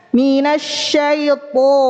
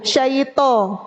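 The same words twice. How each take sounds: First: Slow MINASYAITO with a full, heavy "tho"; correct heavy to. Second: SYAITO ending in a light t plus o; plain, relaxed-tongue t in SYAITO; ta given an o. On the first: Teacher showing how it should be, heavy emphatic to. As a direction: raise the back of the tongue on the to of MINASYAITO. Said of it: "Harusnya gimana?". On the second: Teacher showing the wrong letter, light ta with o. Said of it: "itu huruf ta dikasih o". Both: Shown as a demonstration.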